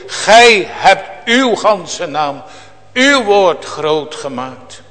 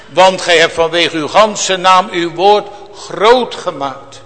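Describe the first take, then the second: First: Slow, with "Gij" weighted and "groot" held, thankful tone; slow grateful recitation stressing "Gij" and "uw"; slow thankful emphasis. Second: Said in the usual way. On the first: Shown as a demonstration. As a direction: savour each word like a psalm of thanks, slowly. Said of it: "in deze psalm klinkt dan telkens die danktoon door". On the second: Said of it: "Zie je het, in deze psalm klinkt dan telkens die danktoon door".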